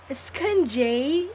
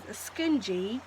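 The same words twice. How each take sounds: First: Drawn-out, louder mock British question; playful British-accent echo. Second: Said in the usual way. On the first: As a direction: stretch SCRUNCHIE out in a put-on British accent. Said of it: "Is there any English people".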